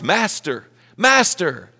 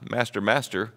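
First: It is said loudly and urgently. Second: It is said softly and calmly. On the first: Someone is in danger and needs help now. The speaker calls it right. "They're trying to shake this man awake" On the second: There is no pressing need for help. The speaker calls it wrong. "And it's not"

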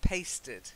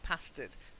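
First: The first vowel sounds like in 'paste'. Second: The first vowel sounds like in 'past'. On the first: It comes from the verb to paste. The speaker calls it right. "it's from paste" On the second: It comes from the word past. The speaker calls it wrong. "Not pasted"

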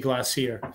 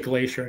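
First: It is pronounced the British way. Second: It is pronounced the non-British way. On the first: "they say glacier" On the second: "They don't say glacier in England"

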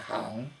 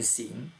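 First: The syllable is pronounced hang. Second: The syllable is pronounced xing. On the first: The speaker calls it right. "但是我们的音是念行" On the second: The speaker calls it wrong. "你不可以念行"

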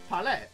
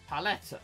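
First: The word is said in a French way. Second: The word is said in an English way. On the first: The speaker calls it right. "Palette is a French word. It should be palette, right?" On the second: The speaker calls it wrong. "I used to pronounce it like palette"

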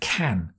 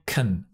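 First: The word is said with a full vowel. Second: The word is said with a reduced vowel. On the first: The speaker calls it wrong. "instead of can" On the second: The speaker calls it right. "As far as I can instead of can, because it's also unstressed"

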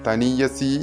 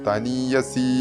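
No difference in how they are said.

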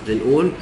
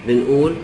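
Both takes have the same delivery.

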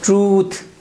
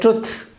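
First: The vowel is held long. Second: The vowel is cut short. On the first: The speaker calls it right. "This is not short. It's long one" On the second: The speaker calls it wrong. "we pronounce the short one"

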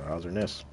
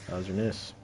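First: It is said in a put-on character voice. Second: It is said in the speaker's normal voice.

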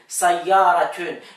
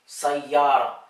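First: The word ends with an added -tun syllable. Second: The word ends on a plain open -a vowel. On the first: This is the formal literary form. "Wenn man das jetzt so richtig hocharabisch, literarisch, arabisch, Koran, arabisch und so, wird hier zum Beispiel ein Tön" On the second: This is the everyday street form. "sagt man noch einfach nur Sayara"

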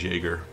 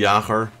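First: The name is said with an English pronunciation. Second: The name is said with a Dutch pronunciation. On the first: "most English will probably pronounce it as Jaeger" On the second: "that's how you should pronounce it if it's Dutch"

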